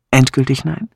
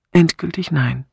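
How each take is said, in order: First: "Endgültig nein?" as a question, rising at the end; questioning echo. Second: "Endgültig nein." as a statement, "nein" settling down; final refusal. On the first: Rejected suitor checking her refusal, "Endgültig nein?" asked with a rise. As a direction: ask "Endgültig nein?" back, lifting "nein". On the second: Woman confirming her refusal to the suitor, "Endgültig nein." stated as final. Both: Acted.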